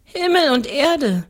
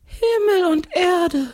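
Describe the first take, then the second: First: Put-on higher little-girl answer; seven-year-old girl. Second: Very high, slow ghostly cry; ghost calling out. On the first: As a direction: answer simply in a raised child's voice. Girl answers the ghost's question. (kindliche Mädchenstimme) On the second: A narrator's reading. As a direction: draw it out high like an exclaiming ghost. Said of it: "ruft der Geist". (gedehnter, hoher Geisterruf)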